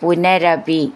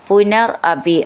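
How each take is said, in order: First: The two words are linked into one. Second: The two words are said separately.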